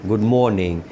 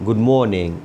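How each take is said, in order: Both takes have the same delivery.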